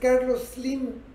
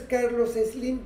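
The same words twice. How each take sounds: First: The s starts the word, with no extra vowel. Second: An extra e sound comes before the s. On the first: The speaker calls it right. "Su nombre es Carlos Slim" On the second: The speaker calls it wrong. "Su nombre no es Carlos Slim"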